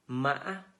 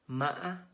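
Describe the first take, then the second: First: The pitch is high and broken. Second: The same.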